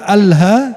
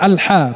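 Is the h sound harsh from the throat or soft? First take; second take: soft; harsh. First: The h is a light, soft breath sound. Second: The h is a tense, harsh throat sound. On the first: It means death. The speaker calls it wrong. "pakai Ha bukan Ha, artinya kematian" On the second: It means praise. The speaker calls it right. "pakai Ha, artinya pujian"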